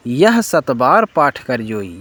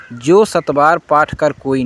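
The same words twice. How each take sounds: First: यह ... कर जोई said slowly and clearly; correct reading shown. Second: जो ... कर कोई said as the mistaken version; wrong reading shown. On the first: Teacher gives students the correct reading, slowly. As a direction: give कर जोई as the right words, slowly. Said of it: "यह सही उच्चारण है". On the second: Teacher quotes the wrong line to students, plain. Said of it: "यह बिल्कुल गलत पाठ है". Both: Shown as a demonstration.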